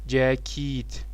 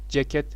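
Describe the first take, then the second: First: The second vowel sounds like i. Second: The second vowel sounds like e. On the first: This is the Arabic form. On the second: This is the Turkish form.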